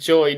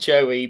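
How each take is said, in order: First: The name is said as one syllable. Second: The name is said as two syllables. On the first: The speaker calls it right. "I think it's pronounced Joy" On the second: The speaker calls it wrong. "not Joey"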